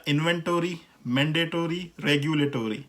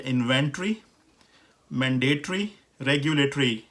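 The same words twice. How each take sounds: First: इन्वेंटरी, मैंडेटरी, रेगुलेटरी each ending in full tor-ee; American pronunciation. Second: इन्वेंटरी, मैंडेटरी, रेगुलेटरी each ending in tree; British pronunciation. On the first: Teacher sums up the pattern, American pronunciation. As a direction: list the three sounding the o. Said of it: "American English में इसी तरह". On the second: Teacher sums up the pattern, British pronunciation. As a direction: list the three with no o before r. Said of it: "ट्री करके use हो रहा". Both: Shown as a demonstration.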